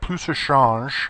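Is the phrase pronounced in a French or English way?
French. It is said with a French pronunciation. It sounds proper but pretentious. "which would be the right way to say it, but that sounds kind of pretentious"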